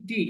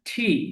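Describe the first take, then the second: First: The t is said without a breathy puff. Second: The t is said with a breathy puff. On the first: The speaker calls it wrong. "আমরা বলি টি" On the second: The speaker calls it right. "কিন্তু এটা উচ্চারণটা ঠি"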